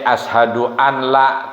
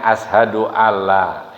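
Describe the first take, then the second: First: The n sound is kept before the l. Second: The n sound merges into a doubled l. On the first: "tulisannya ya" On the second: "tapi dibacanya"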